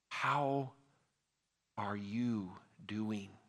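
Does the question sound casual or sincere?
sincere. It sounds slow, earnest and genuinely curious.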